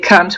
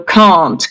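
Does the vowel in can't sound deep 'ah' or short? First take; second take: short; deep ah. First: The vowel is short and central, not deep. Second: The vowel is a deep, open 'ah' from the throat. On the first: The speaker calls it wrong. "they say can't, which is a swear word" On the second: The speaker calls it right. "the very deep sound ah, it is pronounced here in the throat"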